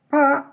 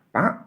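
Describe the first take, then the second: First: The name is called out loudly. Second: The name is called out softly. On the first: "bisa jadi keras" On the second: "Bisa jadi pelan"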